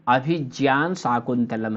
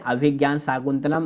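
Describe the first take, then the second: First: The conjunct is said like 'jya'. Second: The conjunct is said like 'gya'. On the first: This is the pure pronunciation. The speaker calls it right. "ऐसा बोलना चाहिए" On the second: This is how people commonly say it. The speaker calls it wrong. "सामान्य प्रयोग में ... सब लोग कहते रहते हैं"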